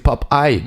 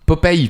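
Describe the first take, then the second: First: The name is said with English pronunciation. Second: The name is said with French pronunciation. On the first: "mais en anglais c'est Popeye" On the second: "Popeye pour nous en français"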